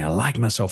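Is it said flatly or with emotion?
with emotion. It is said with feeling and emotion.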